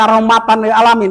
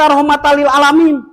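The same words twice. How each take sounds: First: The n is clearly pronounced before lil. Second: The n merges into the following l. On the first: The speaker calls it wrong. "ditanya apa hukumnya? Diam" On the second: The speaker calls it right. "kita bisa menjelaskan kok"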